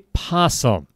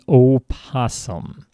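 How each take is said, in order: First: The word starts directly with a p sound. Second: The word starts with an extra o vowel sound. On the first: The speaker calls it wrong. "Don't say possum" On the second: The speaker calls it right. "There's an O at the beginning"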